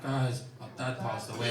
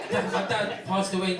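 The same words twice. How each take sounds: First: Mock grief. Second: Mock grief again. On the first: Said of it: "call into work and be like". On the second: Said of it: "Might as well use his name".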